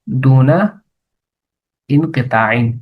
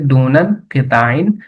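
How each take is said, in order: First: The two words are said separately, unlinked. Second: The two words are linked with an n sound.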